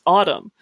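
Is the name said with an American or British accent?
American. It is said with an American accent.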